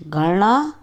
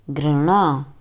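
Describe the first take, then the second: First: घृणा said wrongly as "ghalna"; घृणा without the r, ghalna; wrong pronunciation. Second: घृणा said correctly as "ghrana"; घृणा pronounced ghrana; correct pronunciation. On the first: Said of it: "अशुद्ध उच्चारण अलग तरीके से होता है". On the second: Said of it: "शुद्ध उच्चारण अलग तरीके से होता है". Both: Shown as a demonstration.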